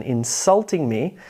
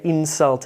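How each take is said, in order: First: Insulting as a verb, SULT strong; inSULTing me, light first syllable; stress on second syllable. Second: INsult, lighter second syllable; stress on first syllable. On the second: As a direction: insult as a noun, IN strong. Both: Shown as a demonstration. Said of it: "the shift in syllable stress".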